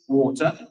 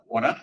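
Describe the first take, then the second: First: Drawn-out English "water"; English accent. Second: "water" corrected to American; American accent. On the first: Host showing her own way with the word, English accent. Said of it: "you say water". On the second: Host correcting herself for California listeners, American accent. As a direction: repeat water the American way, rising. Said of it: "You gotta say water". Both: Shown as a demonstration.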